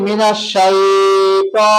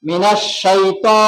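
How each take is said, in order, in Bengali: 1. 'ta'-র স্বরধ্বনিটি টেনে দীর্ঘ করা হয়। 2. 'ta'-র স্বরধ্বনিটি হ্রস্ব। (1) "শুদ্ধ আর থাকলো না" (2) "শাইটাকে লম্বা করবো না আমরা"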